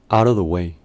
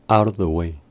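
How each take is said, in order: Both takes have the same delivery.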